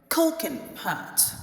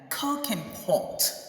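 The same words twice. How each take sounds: First: The vowel in pot is an open American 'ah'. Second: The vowel in pot is a rounded British 'o'. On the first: "you hear them saying" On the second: "which is the British pronunciation"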